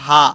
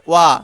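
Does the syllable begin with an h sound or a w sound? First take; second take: h sound; w sound. First: The syllable begins with an h sound. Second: The syllable begins with a w sound. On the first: It is read as a letter or inside a word. "শব্দে ব্যবহার হলে হা" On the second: It is used as a particle in a sentence. "বাক্যে ব্যবহার হলে ওয়া"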